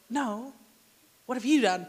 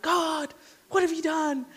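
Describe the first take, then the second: First: "what have you done" with YOU stressed, turning the blame back. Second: "what have you done" with WHAT pushed higher, accusing God; stress on what. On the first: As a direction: throw it back by hitting "you". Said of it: "And then God's like". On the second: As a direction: blame God by hitting "what". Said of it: "Joshua's instinct was kind of like". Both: Retold or imitated.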